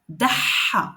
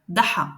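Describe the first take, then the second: First: The middle consonant is doubled and held longer. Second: The middle consonant is short and single. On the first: "Maintenant avec shadda, c'est vraiment accentué" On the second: "on prononce le mot sans le shadda"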